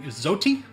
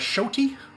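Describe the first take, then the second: First: The word begins with a z sound. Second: The word begins with an sh sound. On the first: The speaker calls it wrong. "using a Z for the, uh, for the like xylophone" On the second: The speaker calls it right. "it's actually more of a Shoti with an S H"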